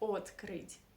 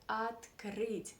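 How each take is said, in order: First: The first vowel keeps a full 'o' sound. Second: The first vowel is reduced to an 'a' sound. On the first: It sounds like a foreign accent. The speaker calls it wrong. "not открыть. ... It would sound like a foreign um, accent" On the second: It sounds natural and native. The speaker calls it right. "Russian people pronounce this O as A. ... That's why we say открыть"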